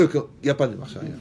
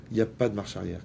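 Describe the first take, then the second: First: Mock Moroccan French accent, higher and louder; Moroccan accent joke. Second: Said in the usual way. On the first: Preacher jokes that Moroccans have no reverse gear, mock Moroccan accent. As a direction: tease it out in a playful Moroccan accent. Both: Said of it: "Comme chez les Marocains".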